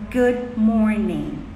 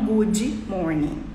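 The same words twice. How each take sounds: First: The d in good is a plain d. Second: The d in good sounds like dj. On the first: The speaker calls it right. "Então é good, good morning" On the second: The speaker calls it wrong. "Não good morning"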